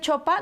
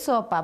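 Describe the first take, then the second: First: The word begins with a 'ch' sound. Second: The word begins with an 's' sound. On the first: It imitates a small child's baby talk. The speaker calls it wrong. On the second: It models the correct adult pronunciation. The speaker calls it right.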